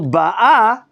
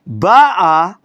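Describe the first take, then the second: First: The stress is on the last syllable. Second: The stress is on the first syllable. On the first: She is coming now. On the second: She came already.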